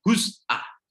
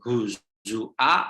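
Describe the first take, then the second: First: No vowel follows the z. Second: A u vowel follows the z. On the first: "hadfu dhammati minaz-za ... huz'a" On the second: "bukan huzua"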